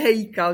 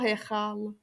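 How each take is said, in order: First: The middle consonant is a plain k sound. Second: The middle consonant is a rasping ch sound. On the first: The speaker calls it wrong. "Ne, Hejkal, jo? ... tak ne" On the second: The speaker calls it right.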